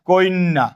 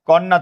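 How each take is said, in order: First: An 'i' sound is added before 'nn'. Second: The word has no added vowel before 'nn'.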